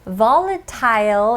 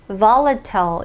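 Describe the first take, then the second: First: The last syllable rhymes with tile. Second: The last syllable has a short, weak vowel. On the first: "이 il을 tile 이렇게 읽어도 되고요" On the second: "i를 long i로 발음을 하지 않아도 됩니다"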